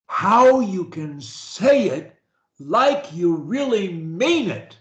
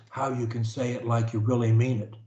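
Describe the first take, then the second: First: Slow, committed, each word pressed; really mean it. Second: Quick, soft, rushed through; throwaway mumble. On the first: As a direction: say it like you truly mean it. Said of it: "you focus on how you can say it like you really mean it". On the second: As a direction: toss it off without meaning it. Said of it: "See the difference?". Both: Shown as a demonstration.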